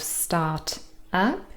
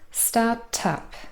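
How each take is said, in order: First: The two words are said separately. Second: The t runs on into the second word. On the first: "instead of start up" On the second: "you probably hear something sounding like start tup"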